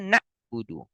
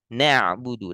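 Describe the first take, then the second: First: The ain sound is held back and stopped. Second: The ain sound flows half-way and sounds light. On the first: The speaker calls it wrong. "Kalau dibaca na'budu ini ain eh, tertahan" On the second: The speaker calls it right. "Harusnya ain mengalir setengah. Na'budu dan tipis"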